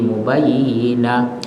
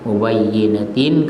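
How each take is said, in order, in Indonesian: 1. Kata ini berakhir dengan bunyi h. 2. Kata ini berakhir dengan huruf t dan -in.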